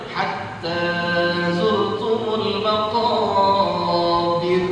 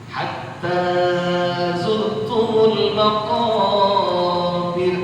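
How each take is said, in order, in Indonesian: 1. Vokalnya dipanjangkan terlalu lama. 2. Vokalnya dipanjangkan terlalu lama.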